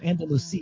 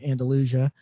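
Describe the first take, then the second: First: It is pronounced the Spanish way. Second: It is pronounced the Southern American way. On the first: It names the city in Spain. "Andalusia is the Spanish city" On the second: It is the local Southern name. "we Southerners like to pronounce it differently"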